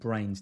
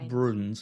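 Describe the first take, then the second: First: The name rhymes with 'trains', one syllable. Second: The name has an 'oo' sound, like 'Bruins'. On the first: The speaker calls it right. "You pronounce it Brains" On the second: The speaker calls it wrong. "Can you remind me if I ever say Bruins"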